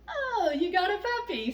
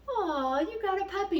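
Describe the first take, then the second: First: It sounds put off and disgusted. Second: It sounds warm and delighted.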